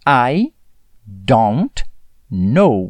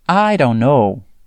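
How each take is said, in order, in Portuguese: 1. Cada palavra é dita completa e claramente. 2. As palavras se juntam rápido e ficam reduzidas.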